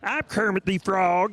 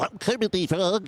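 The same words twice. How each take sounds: First: A frog voice with a Southern accent. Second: A frog voice made nasal by pinching. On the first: "what if Kermit the Frog talked in a Southern accent?" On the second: "if you do Kermit the Frog, pinching your nose"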